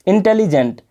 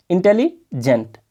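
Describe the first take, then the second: First: Said in the usual way. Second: "intelligent" said slowly, broken into its syllables; split into syllables. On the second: Shown as a demonstration. Teacher showing students where intelligent breaks, said slowly. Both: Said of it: "तोड़ तोड़ के यहाँ पर देखोगे".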